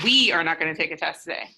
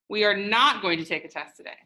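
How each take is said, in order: First: The stress is on the word we. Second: The stress is on the word not.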